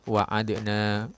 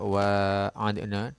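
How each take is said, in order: First: The first vowel is kept short. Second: The first vowel is held long. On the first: "wawunya pendek" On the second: "dengan panjang wawunya"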